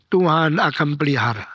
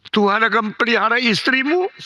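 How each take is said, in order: First: Said in the usual way. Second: "istrimu" lifted higher, rising; emphatic repeat. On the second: Acted. Pastor reassuring the dying man, rising on "istrimu". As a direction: press "istrimu" upward with conviction.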